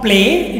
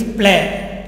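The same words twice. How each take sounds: First: "play" said like English "pleɪ", gliding vowel; "play" with the English diphthong ending in -ee; "play" as the English word, sliding "ay"; wrong English play. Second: "play" said as French "plé", pure closed e with no glide; "play" clipped to a tight French "é"; "play" like plaît, the vowel held still. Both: Shown as a demonstration. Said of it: "Not play, it is play".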